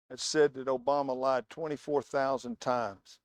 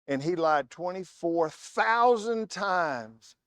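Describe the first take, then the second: First: Said in the usual way. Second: "twenty-four thousand" stressed and slowed; slow emphasis. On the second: Retold or imitated.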